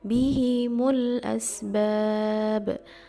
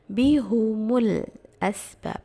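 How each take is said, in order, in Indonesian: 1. Vokal setelah h adalah i. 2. Vokal setelah h adalah u. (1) "kasrah haknya dan dhammah mimnya" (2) "membaca dengan dhammul ha wal mim, berarti mendommahkan ha dan mimnya"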